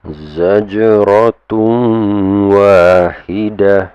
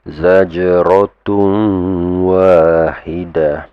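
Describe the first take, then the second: The two takes are said the same way.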